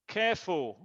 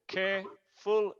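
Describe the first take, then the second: First: Said in the usual way. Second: "Careful" broken in two, care - ful; split into syllables. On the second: Shown as a demonstration. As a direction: pause between the syllables of "Careful". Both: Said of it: "es dos sílabas".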